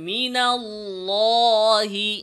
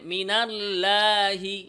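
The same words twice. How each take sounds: First: The L is pronounced heavy and thick. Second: The L is pronounced light and thin. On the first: The speaker calls it right. "বলতে হবে মিনাল্লাহি" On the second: The speaker calls it wrong. "পাতলা করা"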